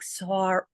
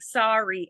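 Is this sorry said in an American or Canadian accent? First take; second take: Canadian; American. First: It is said with a Canadian vowel. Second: It is said with an American vowel. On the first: "And I'm like, ... I have the special O, and it's a Canadian thing" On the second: "And they're like"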